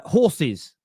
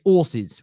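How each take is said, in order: First: "horses" with the H sounded; careful H pronunciation. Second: "horses" said as 'orses; dropped H. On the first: Host giving the standard form for contrast, "horses" with a clear H. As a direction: breathe the H to open "horses". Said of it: "we say horses". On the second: Host showing how Southerners say it, "horses" with no H. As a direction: begin "horses" straight on the or vowel. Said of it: "It's an accent". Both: Shown as a demonstration.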